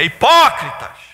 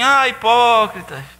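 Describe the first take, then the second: First: It is said as a forceful exclamation. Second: It is said as a calm address.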